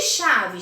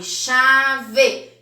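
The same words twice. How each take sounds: First: Said in the usual way. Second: "chave" loudly as cha... vê, final e fully sounded; two separate beats on "chave": cha, ve; split into syllables. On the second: Shown as a demonstration. Teacher showing two syllables, "chave" split as cha... ve. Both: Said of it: "duas sílabas".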